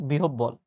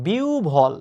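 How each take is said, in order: First: "বিহবল" with doubled b, bi-hob-bol; wrong pronunciation. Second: "বিউভল" slowly as bi-u-bhol; correct pronunciation. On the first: Teacher rejecting the common error, "বিহবল" as bi-hob-bol with doubled b. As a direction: say "বিহবল" the mistaken way, hard b-b. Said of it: "not বিহবল". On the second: Teacher pointing out the right form, careful slow "বিউভল" as bi-u-bhol. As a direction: stretch "বিউভল" with u and an aspirated bh. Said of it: "তো এই যে বিউভল". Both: Shown as a demonstration.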